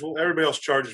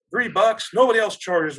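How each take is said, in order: First: Said in the usual way. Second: Indignant retort, higher and louder; mad mom. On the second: Retold or imitated. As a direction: imitate a mom outraged at the price. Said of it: "she's all mad about paying three bucks".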